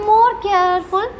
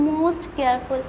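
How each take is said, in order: First: "more" drawn out very slowly and leaned on; stress on more. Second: "most careful" dropped much softer and lower; soft superlative. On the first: Teacher to students spelling out the comparative form, "more" drawn out slowly. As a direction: stretch the word "more" long and slow. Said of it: "comparative degree में more". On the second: Teacher to students giving the superlative, "most careful" said softly. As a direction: let "most careful" fall away softly. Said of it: "superlative degree में most". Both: Shown as a demonstration.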